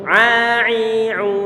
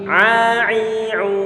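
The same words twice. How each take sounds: The two takes are said the same way.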